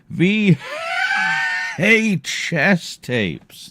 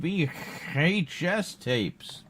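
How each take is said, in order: First: It is said in a wheezy, old-man voice. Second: It is said in a plain, clear voice.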